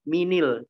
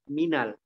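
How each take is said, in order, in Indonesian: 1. Huruf n diikuti vokal i. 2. Huruf n diikuti vokal a. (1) "Juga bukan minil" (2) "tapi apa? Minal. Jadi diganti harokat fathah"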